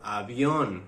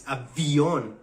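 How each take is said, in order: First: "avión" said with a B sound. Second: "avión" with a clear V, drawn out. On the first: Serbian friend correcting Jorge's error, avión with a B. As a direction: soften the V of "avión" into a B. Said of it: "B and V". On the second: Serbian friend correcting Jorge, avión with a clear V. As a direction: stress a true V sound in "avión", slowly. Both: Shown as a demonstration.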